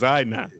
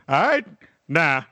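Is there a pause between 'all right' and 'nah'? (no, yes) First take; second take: no; yes. First: The phrase runs together with no pause. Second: The phrase has a pause before the last word. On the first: The speaker calls it right. "it's all one word too" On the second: The speaker calls it wrong. "I've never heard an old head be like"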